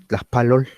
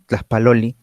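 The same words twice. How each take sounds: First: "Tlaxpalol" cut off at the L; shortened ending. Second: "Tlaxpaloli" with its final vowel sounded; full ending. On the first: Teacher imitates other regions, "Tlaxpalol" with shortened ending. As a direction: drop the final vowel, ending "Tlaxpalol" on L. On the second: Teacher gives the form others don't say, "Tlaxpaloli" with full ending. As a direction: say "Tlaxpaloli" complete, down to the last i. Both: Shown as a demonstration. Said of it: "hay algunos que acortan".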